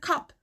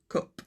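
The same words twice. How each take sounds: First: The vowel is an open 'a'-like sound. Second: The vowel is a rounded 'u'-like sound. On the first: This is how it is said in southern England. "So south of England" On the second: This is how it is said in northern England. "North of England"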